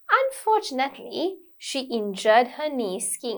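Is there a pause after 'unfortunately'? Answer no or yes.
yes. There is a short pause after the first word. The speaker calls it right. "It's a very natural thing"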